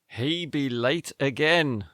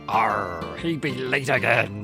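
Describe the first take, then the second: First: It is said in a normal speaking voice. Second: It is said in a put-on pirate voice.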